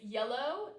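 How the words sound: The word ends in an 'oh' vowel. "words um, end in like an O"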